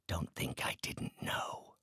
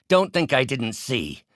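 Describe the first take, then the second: First: Slow, near-whispered menace; soft, slow threat; hushed accusation. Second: Higher, forceful accusation; angry, raised-voice reproach; sharp accusation. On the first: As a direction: drop to a breath and accuse. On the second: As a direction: confront the betrayer out loud. Accusing a betrayer. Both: Acted.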